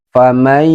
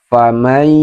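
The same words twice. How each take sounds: No difference in how they are said.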